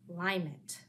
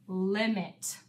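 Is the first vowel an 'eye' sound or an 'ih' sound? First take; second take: eye; ih. First: The first vowel is a long 'eye' sound, as in 'lime'. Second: The first vowel is a short 'ih' sound, as in 'lip'. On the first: The speaker calls it wrong. "let's try it this way first and see if this works" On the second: The speaker calls it right. "let's make a closed syllable and try the short I sound instead"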